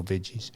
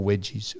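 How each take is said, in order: First: Said in the usual way. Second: "wedgies" with a W, meaning veggies. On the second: Shown as a demonstration. He contrasts her word with the usual one, "wedgies" with W. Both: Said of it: "it just intrigued me".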